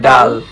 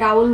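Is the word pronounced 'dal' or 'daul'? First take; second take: dal; daul. First: The word has a plain single vowel. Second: The word has an added 'u' glide. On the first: This is the standard form. "Exactly উচ্চারণ হবে ডাল" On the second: This is the regional form. "আমাদের আঞ্চলিক ভাষায় ডাউল বলে"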